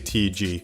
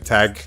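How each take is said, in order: First: It is said as separate spelled-out letters. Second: It is said as a single one-syllable word. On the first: This is how the speaker personally says it. "I say T G" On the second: Other people say it this way. "Some people say tag"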